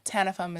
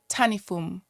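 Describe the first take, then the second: First: The name has an Americanized pronunciation. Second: The name has its original home-country pronunciation. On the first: This is how Americans say it. "is like the Americanized way" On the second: This is how people in her home country say it. "If you went to my country, they would say Tanifum"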